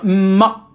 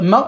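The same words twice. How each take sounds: First: "ma" with the m held long, doubled; shadda intensification. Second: Said in the usual way. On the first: Shown as a demonstration. Teacher showing students the shadda, pressed, doubled m in "ma". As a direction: lean hard on the m of "ma" before releasing the vowel. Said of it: "J'appuie sur la lettre". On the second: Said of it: "au lieu de dire ma".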